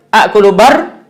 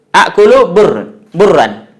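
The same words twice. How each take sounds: First: Akulu bar with open a instead of u; wrong pronunciation demo. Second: Slow, careful akulu bur with dhammah u; correct Arabic pronunciation. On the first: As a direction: show the mistake, bar not bur. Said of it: "kalau kita salah ucap". (contoh salah ucap akulu bar dengan vokal a) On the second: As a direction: spell out bur with a rounded u. (akulu bur diucapkan pelan dengan vokal u) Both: Shown as a demonstration.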